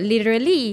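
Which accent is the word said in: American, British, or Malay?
American. It is said with an American English accent. "kalau American dia sebut"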